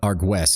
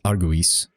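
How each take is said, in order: First: The word is said in two syllables. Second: The word is said in three syllables. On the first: The speaker calls it wrong. "so it's not Argues" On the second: The speaker calls it right. "it's Arguis"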